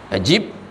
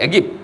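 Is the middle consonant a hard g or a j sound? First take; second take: j sound; hard g. First: The middle consonant is a j sound. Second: The middle consonant is a hard g.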